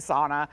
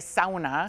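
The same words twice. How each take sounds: First: It is said with an everyday American pronunciation. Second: It is said with a Finnish pronunciation. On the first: "we just say sauna" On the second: "if you're Finnish, you say sauna"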